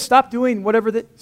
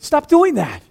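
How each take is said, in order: First: Said in the usual way. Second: Louder, higher second take of stop doing that; emphatic repeat. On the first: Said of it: "If she says". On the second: Shown as a demonstration. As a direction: hammer home stop doing that.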